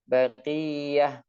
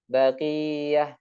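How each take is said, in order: The two takes are said the same way.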